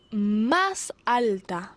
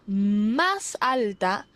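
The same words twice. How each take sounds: The two takes are said the same way.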